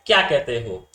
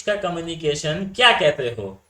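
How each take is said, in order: First: क्या कहते हो with the tone going sharply up; pitch jumps up. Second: Said in the usual way. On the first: Shown as a demonstration. Teacher shows students a rising tone, pitch suddenly up. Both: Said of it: "तो एकदम से ऊपर".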